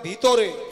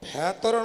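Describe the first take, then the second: First: The first vowel sounds like 'i'. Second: The first vowel sounds like 'e'. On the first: The speaker calls it right. "নয় ভিতরে" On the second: The speaker calls it wrong. "ভেতরে নয়"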